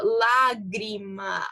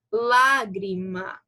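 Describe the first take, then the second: First: Slow "lágrima", force dropping after lá; fading stress demo. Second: Slow "lágrima" with lá hit hard; syllable stress demo. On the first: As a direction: let lágrima fade away after the strong lá. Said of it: "a força vai caindo". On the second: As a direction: stretch lágrima, punching the first syllable. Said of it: "qual é a sílaba mais forte". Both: Shown as a demonstration.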